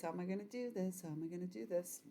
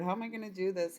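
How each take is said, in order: First: Much softer, fast, under the breath; muttering to herself. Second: Said in the usual way. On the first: Real, not acted. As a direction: mumble it to yourself as you think. Musing while reading cards.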